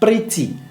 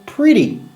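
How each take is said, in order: First: The middle consonant is a crisp T sound. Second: The middle consonant is a quick D-like flap. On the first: The speaker calls it wrong. "ne se dit pas pretty" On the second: The speaker calls it right. "ça sonne pretty"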